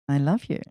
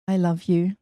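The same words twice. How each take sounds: First: It is said warmly, with energy. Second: It is said in a plain, flat way. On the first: The love is felt with vitality. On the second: The love is stated without feeling.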